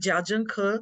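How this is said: The name is said with Mandarin Chinese sounds. "chinês é Jiazhengke"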